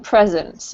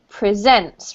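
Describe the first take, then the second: First: The stress is on the first syllable. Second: The stress is on the second syllable. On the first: It is used as a noun. The speaker calls it wrong. "rather than presents" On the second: It is used as a verb. The speaker calls it right. "because it's a verb here, we have to pronounce it presents"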